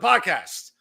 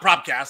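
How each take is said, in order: First: It is said without any R, as podcast. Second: It is said with an extra R, like propcast. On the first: The speaker calls it right. "but the podcast" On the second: The speaker calls it wrong. "like some illiterates can't pronounce it correctly"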